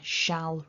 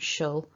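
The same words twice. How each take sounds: First: The word is full and stressed. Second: The word is weak and reduced. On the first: The word is emphasised. "the stronger version, shall rather than shall" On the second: The word is not emphasised. "rather than shall"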